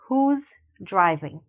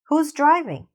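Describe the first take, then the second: First: It is said slowly and carefully. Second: It is said at a normal speed. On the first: "Really focus on saying that S" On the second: "Now let's say it in a normal speed"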